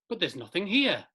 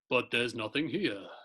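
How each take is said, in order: First: It is read in the speaker's normal voice. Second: It is read in Chitara's weird, deep voice.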